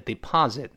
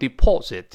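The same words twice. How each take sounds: First: It is said with an American accent. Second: It is said with a British accent. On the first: "美国人把o 变成r 叫deposit" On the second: "英国人读成deposit"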